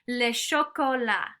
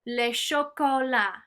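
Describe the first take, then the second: Both takes have the same delivery.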